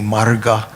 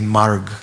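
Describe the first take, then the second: First: The word ends with a final 'a' vowel. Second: The word ends on the consonant 'g'. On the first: This is the older form with the final vowel kept. "Instead of saying marga" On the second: This is the modern Hindi form. "they often drop the final A"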